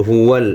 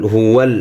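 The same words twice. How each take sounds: The two takes are said the same way.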